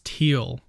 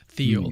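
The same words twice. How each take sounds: First: The name begins with a plain T sound. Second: The name begins with a TH sound. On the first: The speaker calls it right. "It's Thiel" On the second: The speaker calls it wrong. "not Thiel"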